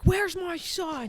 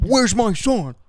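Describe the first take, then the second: First: High, slow worried mother's voice; frantic mother. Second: High, loud cry of a worried mother; hammed-up frantic mother. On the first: Retold or imitated. A mother arriving to ask where her son is, high and worried. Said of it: "so she's like". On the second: Echoing the co-host's line, a louder high mother's cry. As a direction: belt it out high like a panicked mother.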